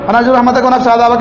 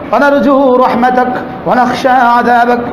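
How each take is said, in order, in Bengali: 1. বাক্যটি দ্রুত ও অযত্নে বলা হয়েছে। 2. বাক্যটি ধীরে ও যত্ন সহকারে বলা হয়েছে। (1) "ওরা তাড়াতাড়ি বলছে" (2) "আমরা ধীরে বলছি"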